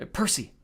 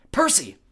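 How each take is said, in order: First: Restrained warning call. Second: Higher, louder urgent call. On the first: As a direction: say the name as a caution. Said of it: "Annabeth warned". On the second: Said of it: "Annabeth said more urgently". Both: A narrator's reading.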